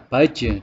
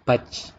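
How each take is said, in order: First: The final j ends with a short bouncing release. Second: The final j is cut off without bouncing release. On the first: The speaker calls it right. "yang seharusnya dibaca baj" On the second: The speaker calls it wrong. "mengucapkan huruf jim tanpa qalqalah ... dibaca baj. Nah, itu merupakan kesalahan"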